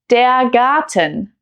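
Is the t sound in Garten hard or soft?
hard. The t sound is hard and crisp. This is standard German.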